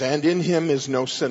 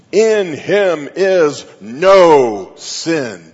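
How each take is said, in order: First: Said in the usual way. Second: IN HIM IS NO SIN, each word loud, slow and drawn out; emphatic statement. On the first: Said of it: "there's just this phrase". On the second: Shown as a demonstration. Preacher voicing a verse like bold flashing lights, emphatic. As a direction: hammer out "In him is no sin" word by word, very slowly and much louder. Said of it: "bold flashing lights and it would say".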